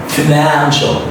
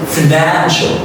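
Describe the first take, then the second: The two takes are said the same way.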